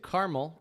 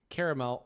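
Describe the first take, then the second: First: The word is said with two syllables. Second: The word is said with three syllables.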